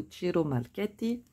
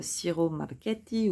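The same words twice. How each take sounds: First: Second try at Ciro Marchetti in Italian; Italian accent. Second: Ciro Marchetti in a tentative Italian accent; attempted Italian accent. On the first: Host offering viewers another pronunciation, Italian accent. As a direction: say the name Italian-style, as an alternative reading. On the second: Host apologising to viewers beforehand, attempted Italian accent. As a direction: try the artist's name with an Italian accent. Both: Shown as a demonstration. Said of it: "on va passer sur l'accent italien".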